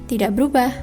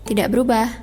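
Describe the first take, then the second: No difference in how they are said.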